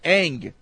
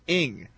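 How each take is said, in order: First: The name is said with an 'ah' vowel. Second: The name is said with an 'ih' vowel. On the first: One listener says this is the correct pronunciation. "Is how it's pronounced, according to Brett" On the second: Another listener says this is the correct pronunciation. "It is pronounced like this"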